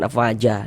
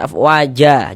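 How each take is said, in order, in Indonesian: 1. Kata ini berakhir dengan huruf vokal a pendek. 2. Kata ini berakhir dengan huruf vokal a panjang. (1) "jangan afwaja" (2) "dibaca dengan panjang dua harokat"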